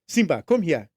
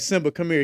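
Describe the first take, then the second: First: It is said in an African accent. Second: It is said in his normal accent.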